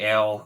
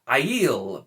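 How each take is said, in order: First: The word sounds like 'ale', one syllable. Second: The word sounds like 'eye-eel', two syllables. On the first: The speaker calls it wrong. "because I say ale" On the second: The speaker calls it right. "the A I being I E"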